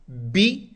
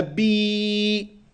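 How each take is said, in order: First: Bi said short and clipped. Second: Bi stretched out long, slow. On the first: Teacher showing pupils a short Bi. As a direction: sound the Bi quick and short. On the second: Teacher showing pupils a drawn-out Bi. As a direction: draw the vowel in Bi out long. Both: Shown as a demonstration. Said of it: "lang ziehen oder kurz halten".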